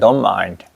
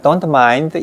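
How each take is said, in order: First: It is said with a tense-tongued American-style pronunciation. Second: It is said with a flat Korean-style pronunciation. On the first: The speaker calls it right. "근데" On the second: The speaker calls it wrong. "이건 우리 한국말 같죠?"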